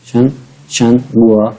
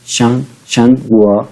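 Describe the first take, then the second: First: शंगुआ drawn out slowly from the throat. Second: शंगुआ drawn out slowly, pushed from the throat. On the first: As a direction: stretch out शन, then शंगुआ. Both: Shown as a demonstration. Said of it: "हलक से निकालना है आपने".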